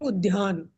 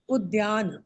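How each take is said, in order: First: It is said with an aspirated dh sound. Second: It is said with a plain d sound. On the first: The speaker calls it wrong. "लोग उद्यान इस प्रकार ... बोलते हैं। वो ध नहीं है" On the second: The speaker calls it right. "वो द और य है। उद्यान"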